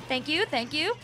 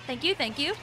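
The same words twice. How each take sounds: The two takes are said the same way.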